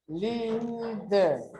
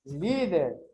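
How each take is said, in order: First: "Líder" with a long drawn-out "Lí", then "der"; slow teacher's breakdown of "Líder" into two syllables; split into syllables. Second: Said in the usual way. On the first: Shown as a demonstration. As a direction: hold the first syllable of "Líder". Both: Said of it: "primeiro separo em sílabo".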